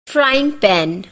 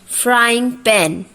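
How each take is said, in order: No difference in how they are said.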